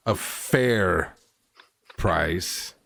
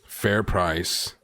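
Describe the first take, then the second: First: "fair" stressed, then a pause before "price". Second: Said in the usual way. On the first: Acted. Companion presses the peddler on cost, FAIR stressed and set apart. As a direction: lean on "fair", hold back "price". Player haggles, repeats with emphasis.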